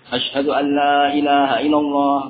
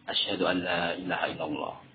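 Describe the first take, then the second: First: It is said loudly. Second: It is said softly.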